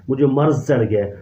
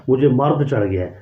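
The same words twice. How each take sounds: First: مرض said with a clear z, as "marz"; correct pronunciation demo. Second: مرد said with a hard d, as "mard", the mocked wrong form; wrong pronunciation demo. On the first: Teacher gives students the proper phrase, مرض pronounced with z. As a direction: end مرض on a plain z sound, set against the d version. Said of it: "کون کہتا ہے؟". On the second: Teacher quotes the mistaken phrase to students, marking مرد with a d. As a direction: say مرد ending in a clear d sound, as if quoting the mistake. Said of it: "ورنہ اردو زبان میں یہ لفظ استعمال ہی نہیں ہوتا".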